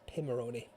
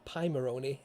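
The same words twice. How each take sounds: First: The first syllable sounds like 'pim'. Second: The first syllable sounds like 'pie'. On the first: The speaker calls it right. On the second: The speaker calls it wrong. "it's not"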